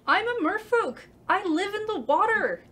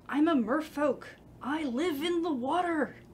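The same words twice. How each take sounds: First: The voice is raised, loud and full. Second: The voice is held back and fairly quiet. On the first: The speaker calls it right. "That was great" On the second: The speaker calls it wrong. "you were sort of pulling back on the, on the like raising your voice there"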